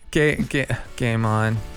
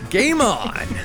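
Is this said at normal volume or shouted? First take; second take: normal; shouted. First: It is said at a normal volume. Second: It is shouted loudly.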